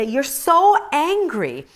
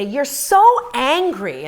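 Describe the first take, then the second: First: High, slow mocking husband saying you're so angry; imitating husband, drawn out and louder; husband's line. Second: Slow, higher mock husband saying you're so angry; imitating husband, drawn out and louder; husband's line. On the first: Husband to angry wife, slow mock chiding. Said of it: "he would just say". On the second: Husband to angry wife, mock slow chiding. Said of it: "and he'd say".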